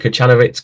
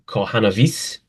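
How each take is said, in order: First: The name is pronounced with American sounds. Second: The name is pronounced with Polish sounds. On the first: This is how Americans say it. "because he's American. That's how they say it" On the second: This is how it is said in Poland. "if I was a true Pole, I would go Kohanovic"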